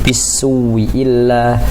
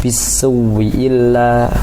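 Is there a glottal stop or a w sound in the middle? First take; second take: w sound; w sound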